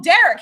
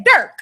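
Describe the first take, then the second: First: Derek in two syllables, "DAIR-ik"; standard pronunciation. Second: Derek squashed into "Dirk"; Dirk, with an "ur" vowel; Baltimore pronunciation. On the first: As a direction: say Derek fully, as if catching on. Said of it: "Yeah, Dirk". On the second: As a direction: say Derek as one syllable, "Dirk". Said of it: "He said". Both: Retold or imitated.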